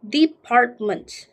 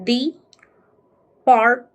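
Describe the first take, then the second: First: Said in the usual way. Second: "department" slowly split as de, part, ment; syllable by syllable. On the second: Shown as a demonstration. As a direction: pause between each syllable of "department". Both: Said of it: "So we read as".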